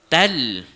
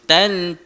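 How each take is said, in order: First: The n merges into an l sound. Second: The syllable ends with a clear n sound. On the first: The speaker calls it right. "Dia terus bunyi tal" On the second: The speaker calls it wrong. "Jangan kita bunyi tan"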